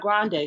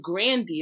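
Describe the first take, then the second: First: The name ends with an 'ay' sound. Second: The name ends with an 'ee' sound. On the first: The speaker calls it wrong. "It's not Grande" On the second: The speaker calls it right. "It's Grandy"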